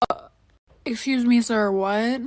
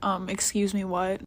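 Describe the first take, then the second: First: Sassy excuse me. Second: Softer, hesitant excuse me, what; real timid excuse me. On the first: Pretend. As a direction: make it a bold confused challenge. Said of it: "But not for real". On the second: Retold or imitated. To the Uber driver, what she really said, meek and soft. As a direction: shrink back and ask it meekly. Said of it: "I was tight".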